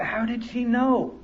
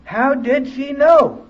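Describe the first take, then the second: First: Soft, slow, wondering to himself; inner thought. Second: Louder, higher, slow astonished repeat; amazed exclamation. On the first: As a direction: murmur it as a private realization. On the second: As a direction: let the wonder burst out. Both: Retold or imitated. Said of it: "I thought".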